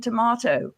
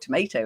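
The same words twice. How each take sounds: First: It is said with a non-American pronunciation. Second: It is said with an American pronunciation.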